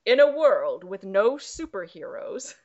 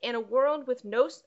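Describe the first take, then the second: First: Hint of dramatic trailer-guy voice; movie trailer announcer. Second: Said in the usual way. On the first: Host restarting the log line, lightly voiced trailer announcer. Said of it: "Sorry, I had to do that". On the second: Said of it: "I had to do that".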